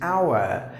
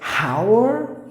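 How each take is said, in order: First: The word starts without an h sound. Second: The word starts with an h sound. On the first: The speaker calls it right. "the right way to pronounce the word is hour. Like H is silent" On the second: The speaker calls it wrong. "pronouncing the letter H"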